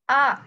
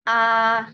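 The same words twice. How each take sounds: First: The pitch rises upward. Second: The pitch stays level and flat.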